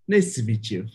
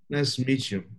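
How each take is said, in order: First: It is said in Zygon's put-on character voice. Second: It is said in the speaker's natural voice.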